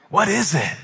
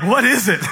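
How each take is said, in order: First: Higher-pitched puzzled question, falling at the end; curious wonder. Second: Loud, high, dismissive question; mock-bored disbelief. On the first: Acted. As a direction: act out first-time amazement. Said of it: "I'm curious". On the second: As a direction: act fed up with the once-exciting. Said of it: "now I'm bored with this".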